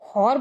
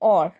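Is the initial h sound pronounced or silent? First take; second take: pronounced; silent. First: The word starts with an audible h sound. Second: The word starts with a vowel, no h. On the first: The speaker calls it wrong. "हॉर बोलते हैं कि" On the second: The speaker calls it right. "H जो हमारा है वो हमेशा silent रहता है"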